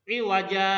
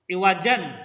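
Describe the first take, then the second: First: The word ends on a vowel without n. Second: The word ends with a final n sound.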